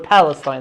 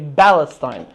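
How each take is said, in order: First: The word begins with a P sound. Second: The word begins with a B sound. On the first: This is the usual form of the name. "they can't even say the word Palestine" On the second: This is how Arabic speakers say it. "They say Palestine"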